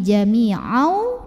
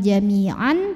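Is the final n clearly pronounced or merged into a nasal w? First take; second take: merged; clear. First: The n merges into a held, nasal w. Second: The final n is pronounced clearly. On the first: The speaker calls it right. "tapi jami'au dan tahan" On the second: The speaker calls it wrong. "bukan jami'an"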